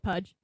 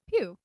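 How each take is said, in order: First: The name ends with a 'dge' sound. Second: The name ends in a plain 'oo' vowel. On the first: This is how its owner really says the name. The speaker calls it right. "how do you actually say it? Like, actually, it's Pudge" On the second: This is how people usually say the name. The speaker calls it wrong. "It's it's Pew"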